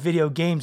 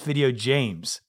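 First: Games begins with a hard G sound. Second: Games begins with a soft G sound. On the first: "the hard G" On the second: "change the hard G to a soft G"

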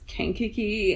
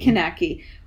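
First: The name is said as Kankakee. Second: The name is said as Kanaki. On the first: The speaker calls it right. "I keep looking at it and reading it, and it's Kankakee" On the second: The speaker calls it wrong. "in Oklahoman, it would be Kanaki. ... Which I think is why I keep reading it that way"

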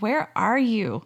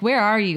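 First: It sounds heartsick and longing. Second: It sounds accusing and punishing.

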